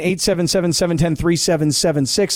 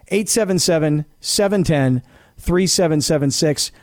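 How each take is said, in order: First: The number is said very fast. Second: The number is said slowly.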